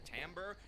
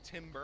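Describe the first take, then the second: First: It does not sound like the tree-felling shout. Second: It sounds like the tree-felling shout. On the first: The speaker calls it right. "the word that he was actually looking for" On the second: The speaker calls it wrong. "like when you chop down a tree and yell timber"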